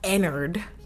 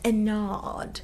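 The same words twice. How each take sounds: First: The name is said without a British accent. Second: The name is said with a British accent. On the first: The speaker calls it wrong. "not Ennard" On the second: The speaker calls it right. "if you give it like a British accent"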